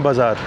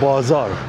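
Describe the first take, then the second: First: It is said plainly, without extra stress. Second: It is said with extra stress on the word. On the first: This is how it is said in India. "अपने India में बोलेंगे" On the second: This is how it is said in Iran. "यहाँ पे बोलेंगे"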